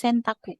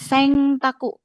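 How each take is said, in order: First: The nasal before the t sounds like n. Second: The nasal before the t sounds like ng. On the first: The speaker calls it right. "tapi Sentaku. Biasa aja N tetap N" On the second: The speaker calls it wrong. "bukan Sengtaku ya"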